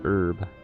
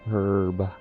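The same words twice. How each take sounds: First: The word starts without an h sound. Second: The word starts with an h sound. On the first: "I kind of just pronounce it as herb" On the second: "not herb. ... that kind of feels weird to say it like that"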